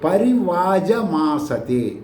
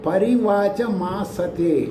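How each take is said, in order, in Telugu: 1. మూడో అక్షరం j శబ్దంతో పలకబడుతుంది. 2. మూడో అక్షరం ch శబ్దంతో పలకబడుతుంది. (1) "యజుర్వేదానికి" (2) "ఋగ్వేదానికి"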